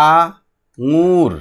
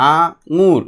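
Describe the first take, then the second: First: "আঙুর" very slow, split as আ-ঙুর; sounding out. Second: Said in the usual way. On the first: Shown as a demonstration. Teacher answers for pupils, "আঙুর" stretched into two parts. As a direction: hold আ, pause, then long ঙুর in "আঙুর". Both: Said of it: "এটা কি হবে".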